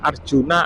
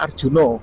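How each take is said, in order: First: The name ends with an 'a' vowel sound. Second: The name ends with an 'o' vowel sound. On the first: This is the standard Indonesian form. "Kalau Indonesia kan Arjuna" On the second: This is how Javanese people say it. "Kalau orang Jawa bilangnya Arjuno, pakai O"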